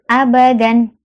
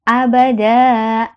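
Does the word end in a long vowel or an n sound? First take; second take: n sound; long vowel. First: The word ends with a short vowel plus n. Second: The word ends with a long vowel, no n.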